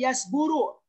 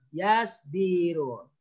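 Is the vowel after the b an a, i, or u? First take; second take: u; i. First: The vowel after the b is u. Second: The vowel after the b is i. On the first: The speaker calls it wrong. "nggak boleh yasburu" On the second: The speaker calls it right. "tapi harus yasbiru"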